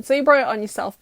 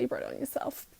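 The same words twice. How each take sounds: First: Said in the usual way. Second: Softer muttered aside; muttered repeat. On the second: Real, not acted. Telling viewers it's their fault, muttered under her breath.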